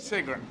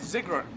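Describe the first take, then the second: First: The name begins with a hissing S sound. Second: The name begins with a buzzing Z sound. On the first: "as opposed to" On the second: "as a Z"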